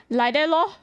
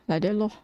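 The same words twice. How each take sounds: First: Higher mock Singlish. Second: Said in the usual way. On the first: To chat asking how she draws, a lilting Singlish lor. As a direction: toss off Like that lor in a lilting sing-song. Mocking own casual reply. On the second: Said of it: "I like".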